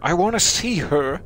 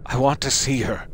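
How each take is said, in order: First: Pitched-up, louder, overplayed plea; overdone grief. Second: Second try at grief. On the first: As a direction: overdo the grieving mother's plea. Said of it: "That wasn't a good emotional level". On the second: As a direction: try the mother's plea again, reined in. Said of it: "Let me try that again". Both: Shown as a demonstration.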